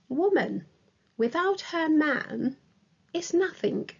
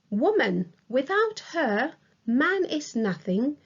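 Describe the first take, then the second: First: It pauses after woman and after man. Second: It pauses after woman and after her. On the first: "separated by comma. It is also separated by comma after without her man" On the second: "a colon separates woman from without her. Without her is separated from the rest of the sentence with a comma"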